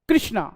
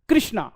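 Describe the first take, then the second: Both takes have the same delivery.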